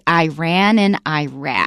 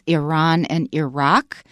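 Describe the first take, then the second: First: The names begin with an 'eye' sound. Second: The names do not begin with an 'eye' sound. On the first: The speaker has a soldier's background. "soldiers coming back from those areas, they say Iran and Iraq" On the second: The speaker has an educated background. "The educated pronunciation is Iran and Iraq"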